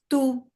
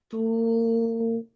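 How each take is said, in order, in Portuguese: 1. O som é cortado muito rápido. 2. O som é mantido por muito tempo. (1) "ou ele pode ser curto, curto" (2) "o som ele pode ser longo"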